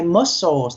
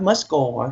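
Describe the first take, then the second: First: The word ends with a clear S sound. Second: The word ends without any S sound. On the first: The speaker calls it right. "we say muscles" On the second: The speaker calls it wrong. "not muscle"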